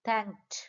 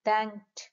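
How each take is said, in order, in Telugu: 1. చివరి హల్లులు ఒకే గట్టి గుంపుగా ఉంటాయి. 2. చివరి హల్లులు ఒకే గట్టి గుంపుగా ఉంటాయి.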